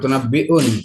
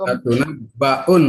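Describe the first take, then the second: First: The vowel after the double b is 'i'. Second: The vowel after the double b is 'a'. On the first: The speaker calls it wrong. "bukan latunabbiun" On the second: The speaker calls it right. "Latunabbaun bukan latunabbiun. Patah bukan kata"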